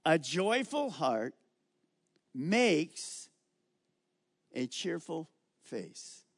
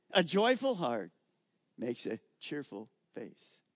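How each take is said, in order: First: Preacher reading scripture slowly to the congregation. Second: Said in the usual way. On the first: Shown as a demonstration. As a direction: read the verse slowly, each word weighed. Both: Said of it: "Now look at that verse".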